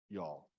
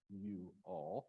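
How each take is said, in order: First: The two words run together without a break. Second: A small pause separates the two words.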